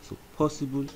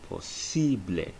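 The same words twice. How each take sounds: First: Said in the usual way. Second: Posible said the Spanish way, final e sounded; po-SEE-bleh, Spanish vowels. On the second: Shown as a demonstration. Teacher contrasts English possible with Spanish posible. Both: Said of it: "is pronounced as posible".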